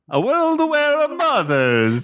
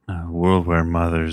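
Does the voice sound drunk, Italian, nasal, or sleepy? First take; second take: Italian; sleepy. First: It is spoken with an Italian accent. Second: It is spoken in a sleepy voice.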